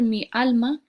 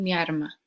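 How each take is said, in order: First: The word is said with an L sound. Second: The word is said with an R sound. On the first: This is the intended word. "quieren decir mi alma" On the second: This is how Andalusian speakers actually say it. "pero dicen mi arma"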